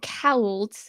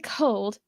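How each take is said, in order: First: The vowel is a broad Hull 'ow' sound. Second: The vowel is a plain standard long o. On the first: "they say cowled" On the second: "they don't say cold"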